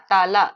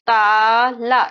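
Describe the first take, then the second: First: Said in the usual way. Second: ताला split as long, loud "taa", then "la"; syllable by syllable. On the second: Shown as a demonstration. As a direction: stretch the first syllable of ताला, then add the last. Teacher breaks word into sounds.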